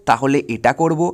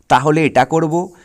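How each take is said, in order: Both takes have the same delivery.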